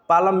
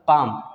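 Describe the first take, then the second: First: The L sound is pronounced before the M. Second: The L sound is silent before the M. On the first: The speaker calls it wrong. "बिल्कुल गलत है" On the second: The speaker calls it right. "इसका सही sound होगा पाम"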